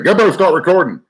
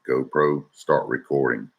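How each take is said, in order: First: It is said quickly with excited energy. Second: It is said slowly and calmly. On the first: The voice command is not recognized. The speaker calls it wrong. "if you get excited when you catch a fish and you say" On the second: The voice command is recognized. The speaker calls it right. "You got to slow down and say"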